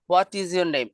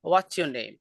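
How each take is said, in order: First: Each word is said separately and fully. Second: The words are joined into a reduced contraction. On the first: "আলাদা করে বলা যাবে" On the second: "এটাকে বলা হয় reduction"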